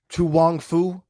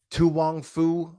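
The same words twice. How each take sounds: The two takes are said the same way.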